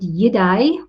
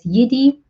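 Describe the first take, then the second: First: The name sounds very like the word Jedi. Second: The name does not sound like Jedi. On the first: This is how the other person says the name. "You said Yidai, which is so similar to Jedi" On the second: This is how the company itself says the name. "We actually refer to it as Yidi"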